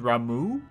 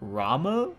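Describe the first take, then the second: First: The name ends in an 'oo' vowel. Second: The name ends in an 'ah' vowel. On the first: The speaker calls it right. "You mean Ramu?" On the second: The speaker calls it wrong. "I would expect that they at least pronounce the names correctly in the English voice acting"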